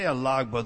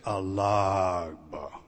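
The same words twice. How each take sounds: First: The word is said in a plain, casual tone. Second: The word is said in a reverent, respectful tone. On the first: The elder is addressed without respect. The speaker calls it wrong. "You didn't say alagba" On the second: The elder is addressed with respect. The speaker calls it right. "There was reverence in your tone"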